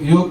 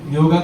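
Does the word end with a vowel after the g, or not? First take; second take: consonant ending; vowel ending. First: The word ends on the 'g' with no vowel. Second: The word ends with a long 'a' vowel. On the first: The speaker calls it right. "યોગ યોગ કરાવશે" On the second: The speaker calls it wrong. "યોગા તો ન કહેવાય"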